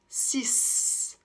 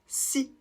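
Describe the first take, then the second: First: The word ends with an S sound. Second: The word ends on the vowel, no consonant. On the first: The number stands alone. "on va prononcer le X comme un S" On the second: A consonant-initial noun follows. "on ne prononce pas le X et on s'arrête donc au I"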